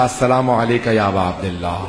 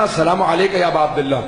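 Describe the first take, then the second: First: Trembling greeting. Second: Said in the usual way. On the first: Retold or imitated. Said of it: "کانپتا ہوا میں نے کہا". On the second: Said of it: "جیسے میں نے کہا نا".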